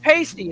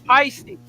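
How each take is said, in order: First: The name sounds like the word pasty. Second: The name rhymes with the word feisty. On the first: The speaker calls it wrong. "Not pasty" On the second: The speaker calls it right. "it's Peisty"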